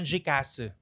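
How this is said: It is said with a Japanese accent. This is how it is said in Japan. "Pero pag nasa Japan"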